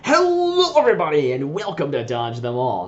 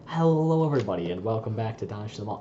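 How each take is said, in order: First: It is said in a wild, energetic voice. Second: It is said in a timid, smooth voice.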